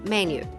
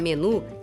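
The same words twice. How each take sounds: First: The word is pronounced the English way. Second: The word is pronounced the Portuguese way. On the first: "se escreve igual em inglês, mas se fala diferente" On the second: "A tecla menu"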